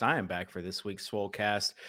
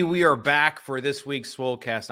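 First: Said in the usual way. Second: Announcer voice. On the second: Shown as a demonstration.

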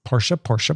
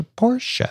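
First: Said in the usual way. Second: Portia sung out high, like a call; high sing-song call. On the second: Shown as a demonstration. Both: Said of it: "repeats the name playfully".

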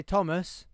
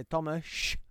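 First: Said in the usual way. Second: Tomasz drawn out on a long sh; Polish pronunciation. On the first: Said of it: "can't hear you". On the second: Shown as a demonstration. Joking about a workmate's name, "Tomasz" with a long final sh. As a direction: stretch the end of "Tomasz" into shhh. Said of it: "he turns around".

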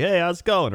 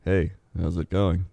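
First: Much higher, cheery hello; upbeat hello. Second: Lower, glum hello; bad-day hello. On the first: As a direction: ask it brightly. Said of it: "You'd be like". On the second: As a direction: ask it like you had a bad day. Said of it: "Or like". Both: Shown as a demonstration.

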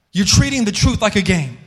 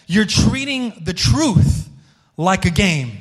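First: Said in the usual way. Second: "You're treating the truth" drawn out slowly, stress on "You're"; slow emphatic rebuke. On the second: Shown as a demonstration. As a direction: pastor stressing the line slowly to his church, emphatic rebuke.

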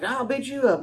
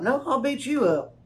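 First: Mock tough guy. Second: Raised a few steps, a hint of a puffed-up player; "I'll" leaned on in a pretend challenge; squabbling ballplayer, lightly mocked; mock tough guy comeback. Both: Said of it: "Just a bunch of guys standing around like".

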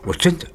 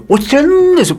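First: 真 picked out briefly, no drag; short tap on 真. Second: 真 drawn out very high and slow; milk 真 like a stage performer; stagey stretched 真. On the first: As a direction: give 真 one quick nod of stress. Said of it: "用手用头去点一下". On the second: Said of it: "你要表演那些". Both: Shown as a demonstration.

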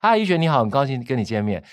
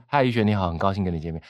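First: Raised pitch. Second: Said in the usual way. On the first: Shown as a demonstration. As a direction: lift the first words up. (开头音调提高) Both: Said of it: "而不是".

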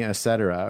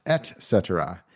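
First: "et cetera" said as uh-SET-er-uh; slurred. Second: "et cetera" said as ET-SET-er-uh; distinct T. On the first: Podcaster guessing his own mistake, "et cetera" as uh-SET-er-uh. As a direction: slur "et cetera", dropping the first t. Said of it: "I must be slurring it a bit". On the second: Podcaster reading the correction, "et cetera" with clear t. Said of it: "E T C is pronounced". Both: Shown as a demonstration.

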